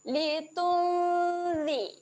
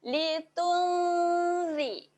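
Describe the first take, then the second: Both takes have the same delivery.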